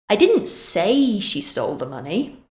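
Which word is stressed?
say. The stress falls on the word say. It was expressed another way, not said. "Maybe I wrote it instead"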